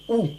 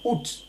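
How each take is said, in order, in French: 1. Le mot finit par une voyelle, pas de T. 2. Le mot finit par un son T. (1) "On dit ou" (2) "certains Français prononcent le T final en disant"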